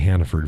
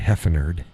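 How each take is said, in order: First: The name is said as Hannaford. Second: The name is said as Heffenerd. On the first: "I don't say Hannaford very often" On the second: "I say Heffenerd, especially with the misses"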